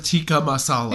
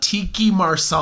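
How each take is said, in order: First: "Tikka Masala" said as TIK-ka ma-SAH-la; correct pronunciation. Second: "Tiki Marsala" said as TEE-kee mar-SAH-la; "Marsala" with an r sound; wrong pronunciation. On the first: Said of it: "instead of". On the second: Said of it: "They say". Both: Shown as a demonstration.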